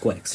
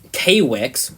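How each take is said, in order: First: The name is said as one syllable, Quicks. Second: The name is split into two syllables, K-Wix. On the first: The speaker calls it right. "it's quite obviously pronounced Quicks" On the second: The speaker calls it wrong. "some re- like silly people uh, where would say K-Wix"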